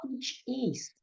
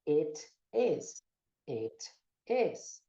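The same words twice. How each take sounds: First: "It is" with long ee sounds, "eet ees"; common Brazilian mispronunciation. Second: "it is" with short, open i, almost "et es"; native-like pronunciation. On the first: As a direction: say "It is" the Brazilian way, ee for each i. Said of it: "Muita gente fala". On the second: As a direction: trade the i for an e in "it is", low and measured. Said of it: "você vai trocar o I pelo E". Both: Shown as a demonstration.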